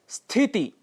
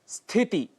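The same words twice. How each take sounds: Both takes have the same delivery.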